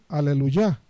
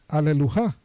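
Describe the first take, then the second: First: The last syllable starts with a soft Y sound. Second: The last syllable starts with a harsh J sound. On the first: The speaker calls it right. "sino Aleluya" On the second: The speaker calls it wrong. "nadie dice Aleluja"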